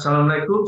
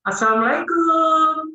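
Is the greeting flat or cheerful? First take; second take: flat; cheerful. First: It is said in a flat tone. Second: It is said in a cheerful tone.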